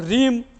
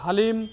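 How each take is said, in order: First: It begins with r and has no h. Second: It begins with h, a vowel, then l. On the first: "बहुत सारे लोग हलीम तो ह्रीम तो रीम तो ऐसे बोलते हैं" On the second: "बहुत सारे लोग हलीम तो ह्रीम तो रीम तो ऐसे बोलते हैं"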